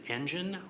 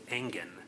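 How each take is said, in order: First: The name sounds like the word engine. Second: The name does not sound like engine. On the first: The speaker calls it wrong. "like an engine" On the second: The speaker calls it right. "It's the latter"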